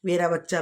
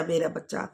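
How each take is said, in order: First: Doting parent. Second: Fading doting coo. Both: Retold or imitated. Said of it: "आप तो उसे प्यार प्यार में".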